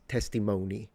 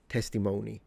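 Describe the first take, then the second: First: It uses the common modern American pronunciation. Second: The same.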